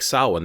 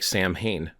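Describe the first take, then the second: First: The middle sound is a w sound. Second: The middle sound is an m sound. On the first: The speaker calls it right. "that doesn't look like Samhain" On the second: The speaker calls it wrong. "that looks like Samhain"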